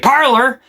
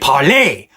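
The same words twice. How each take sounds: First: It is said with an American accent. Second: It is said with a French accent.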